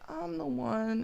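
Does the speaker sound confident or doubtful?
doubtful. It is said flatly, with little feeling. The person doubts themselves. The speaker calls it wrong. "you're not as certain as you usually are"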